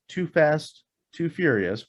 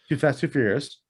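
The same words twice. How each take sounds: First: The name is said at an ordinary pace. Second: The name is said quickly, run together. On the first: The speaker calls it wrong. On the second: The speaker calls it right.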